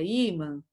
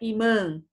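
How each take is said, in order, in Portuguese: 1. O acento tônico está na primeira sílaba. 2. O acento tônico está na segunda sílaba. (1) "é imã" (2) "Não é imã"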